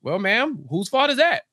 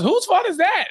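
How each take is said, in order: First: Measured start, rising on THAT; pointed retort. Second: High-pitched acted accusation; accusing outburst. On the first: Acted. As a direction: turn the question back with pitch lifted on "that". Host turns the question back. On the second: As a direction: throw the blame in a high, indignant voice. Acts mom flinging blame at Harvey.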